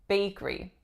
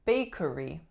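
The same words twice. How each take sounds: First: The middle syllable is dropped, leaving fewer syllables. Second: Every syllable is pronounced, including the middle one. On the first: "the middle syllable goes away" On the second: "this one looks like it should be bakery"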